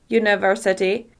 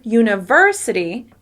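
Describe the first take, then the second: First: All syllables are equally long and stressed. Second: The stress is on the second syllable. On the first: The speaker calls it wrong. "make each syllable exactly the same length" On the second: The speaker calls it right. "when I stress the syllable ver"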